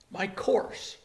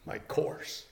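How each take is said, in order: First: Said in the usual way. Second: "My course." half whispered, much softer; hushed reply to his own question; hushed answer. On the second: Shown as a demonstration. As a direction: breathe "My course." almost without voice.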